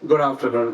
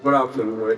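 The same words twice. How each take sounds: First: The greeting sounds warm and friendly. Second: The greeting sounds cold and harsh. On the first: The boss will talk to the latecomer privately. The speaker calls it right. "अब मैं एक गोयल साहब जैसा बढ़िया boss हूँ" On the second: The boss is about to scold the latecomer. The speaker calls it wrong. "मैंने आपको confront किया, आपकी पब्लिकली इंसल्ट करी"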